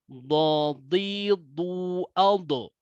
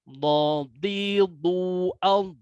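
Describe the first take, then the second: First: The final consonant bounces with an echo vowel. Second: The final consonant stops without any bounce. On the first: The speaker calls it wrong. "tidak boleh membaca dodi dualdo" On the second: The speaker calls it right. "tidak ada sifat kolkolah di dalam huruf dod"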